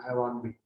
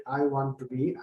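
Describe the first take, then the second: First: "I want to be" squeezed to "I wanbe", lower; shorter form. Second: "I want to be" with "to" sounded; full form. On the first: Teacher showing the short form, "to" swallowed and softer. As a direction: drop "to" and link want into be. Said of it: "So shorter form". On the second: Teacher contrasting with the short form, full words. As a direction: keep want and to as separate words. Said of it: "as if". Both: Shown as a demonstration.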